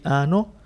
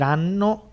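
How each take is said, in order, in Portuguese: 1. O som do n é curto. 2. O som do n é prolongado. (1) "e dizem ano" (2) "alunos não conseguem dizer ano"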